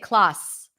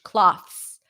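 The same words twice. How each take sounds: First: The TH sound is dropped. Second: The TH sound is fully pronounced. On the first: The speaker calls it wrong. "We're not going to say cloths" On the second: The speaker calls it right. "we are not going to drop the T H"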